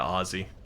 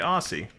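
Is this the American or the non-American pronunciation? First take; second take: non-American; American. First: It is pronounced a non-American way. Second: It is pronounced the American way. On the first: The speaker calls it right. "But I'm aware" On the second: The speaker calls it wrong. "So we say Aussie"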